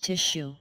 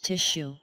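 No difference in how they are said.

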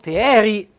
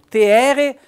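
First: It is said in the Arco dialect, ending in -i. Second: It is said in the Riva dialect, ending in -e. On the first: "noi ad Aco diciamo te eri" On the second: "qui è proprio il dialetto rivano"

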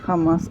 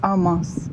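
First: The word begins with an audible h sound. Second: The word begins directly with the vowel, no h. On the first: "деякі кажуть Хамас" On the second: "деякі не вимовляють оцю букву H"

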